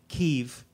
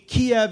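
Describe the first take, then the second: First: The name is said the Ukrainian way. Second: The name is said the Russian way. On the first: "a more Ukrainian pronunciation and spelling is to pronounce it" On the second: "a more Russian or Soviet pronunciation"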